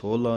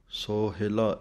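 First: It is pronounced sohla, with no middle i vowel. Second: It is pronounced sohila, with a short middle i. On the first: The speaker calls it wrong. "ਸੋਹਲਾ ਨਹੀਂ ਕਹਿਣਾ" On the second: The speaker calls it right. "ਇਸ ਤਰ੍ਹਾਂ ਪੜ੍ਹਨਾ ਹੈ"

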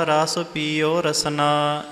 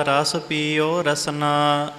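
Both takes have the same delivery.

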